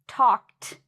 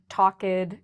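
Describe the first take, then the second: First: The ending is a strong t sound. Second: The ending is not a plain t sound. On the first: The speaker calls it right. "I just made that strong t sound" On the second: The speaker calls it wrong. "notice I did not say"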